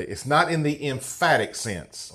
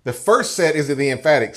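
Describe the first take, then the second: First: "not" hit hard, then the tune falls away; stress on not. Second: "first" lifted and punched, then the tune falls; single out "first" to set it against the other set; stress on first. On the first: Preacher teaching grammar to the congregation, stress on "not". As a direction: lean into "not" to mark it as the non-emphatic set. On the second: Preacher contrasting verse sets for the congregation, stress on "first". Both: Shown as a demonstration. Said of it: "here's the grammar lesson for today".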